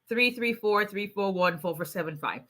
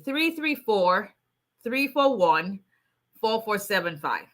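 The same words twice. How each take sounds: First: The digits are said quickly, run together. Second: The digits are said slowly, in separate groups.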